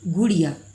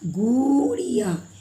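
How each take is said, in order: First: The first vowel is kept short. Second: The first vowel is drawn out long. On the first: The speaker calls it right. "ये soft sound कम समय के लिए ये छोटी ऊ का प्रयोग करते हैं" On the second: The speaker calls it wrong. "गुड़िया ऐसे हम लोग उच्चारण नहीं करते हैं"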